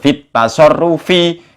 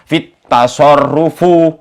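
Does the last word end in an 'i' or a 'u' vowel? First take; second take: i; u. First: The last word ends in an 'i' vowel. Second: The last word ends in a 'u' vowel. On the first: The speaker calls it right. "Padahal yang benar fit tasarrufi" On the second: The speaker calls it wrong. "sudah nggak iso fit tasarrufu katanya"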